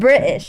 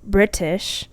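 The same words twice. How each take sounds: First: The T sound in the middle is dropped. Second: The T sound in the middle is overpronounced. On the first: The speaker sounds casual or lower class. "You don't pronounce the T" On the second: The speaker sounds high class or posh. "the ones that overpronounce their T's"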